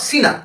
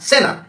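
First: The first vowel sounds like 'ee'. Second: The first vowel sounds like 'eh'. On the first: The speaker calls it wrong. "Not সিনা" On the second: The speaker calls it right. "সেনা, SENNA"

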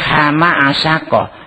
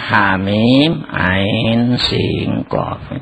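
First: The letters are run together like ordinary words. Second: Each letter is read by its full letter name. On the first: The speaker calls it wrong. "itu salah baca" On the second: The speaker calls it right.

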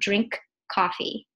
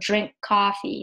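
First: The K of drink is clearly released before coffee. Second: The K of drink blends silently into coffee. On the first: The speaker calls it wrong. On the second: The speaker calls it right. "there is no audible K in within this spectrogram because of the co-articulation with coffee"

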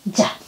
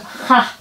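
First: The syllable begins with a j sound. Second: The syllable begins with an h sound. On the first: The speaker calls it right. "bukan ha tapi ja" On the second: The speaker calls it wrong. "kalau bahasa Spanyol kan ini ha"

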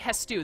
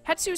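First: The s sound comes before the t. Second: The s sound comes after the t. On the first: "Probably Hestu. The S comes before the T" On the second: "Hetsu sounds so much better"

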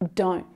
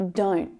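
Both takes have the same delivery.

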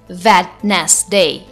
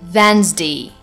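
First: A d sound is pronounced in the middle. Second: No d sound is pronounced in the middle. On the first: The speaker calls it wrong. "It's not Wednesday" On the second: The speaker calls it right. "but it's Wednesday"

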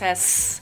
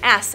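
First: It is said as the hissing letter sound, 'sss'. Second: It is said as the letter name, 'ess'. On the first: It gives the sound the letter makes. "says S" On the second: It names the letter. "This is an S"

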